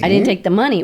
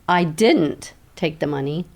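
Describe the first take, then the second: First: The stress is on the word money. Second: The stress is on the word I.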